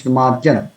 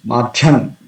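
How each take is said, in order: First: "Madhyan" with a clear dy in the middle; careful "Madhyan", maad-yan; correct consonant cluster. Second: "Madhyan" with a ch-like middle, maa-chan; mispronounced "Madhyan", as if maachhan; common mistake. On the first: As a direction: sound d then y in "Madhyan". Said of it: "It's Madhyan". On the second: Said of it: "Sometimes devotees say". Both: Shown as a demonstration.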